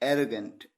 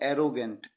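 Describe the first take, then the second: First: The word does not begin like 'arrow'. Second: The word begins with a sound like 'arrow'. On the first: The speaker calls it right. "एरो नहीं" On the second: The speaker calls it wrong. "कई बार students उसको गलत pronounce करते हैं, कहते हैं"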